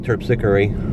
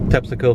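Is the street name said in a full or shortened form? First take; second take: full; shortened. First: It is said in full, following the spelling. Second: It is said in a clipped, shortened form. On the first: This is how the name looks when written. "it looks like Terpsichore" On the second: This is how a family member said the name. "my mom used to call it Tepsico. Tepsico for short"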